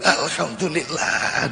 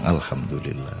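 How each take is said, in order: First: It is said louder and more forcefully. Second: It is said at normal, softer volume.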